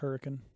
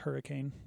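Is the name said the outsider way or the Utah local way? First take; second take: Utah local; outsider. First: It is said the way Utah residents say it. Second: It is said the way non-Utah residents say it.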